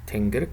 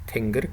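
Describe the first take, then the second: First: The first vowel is a front i-like sound. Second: The first vowel is a front i-like sound.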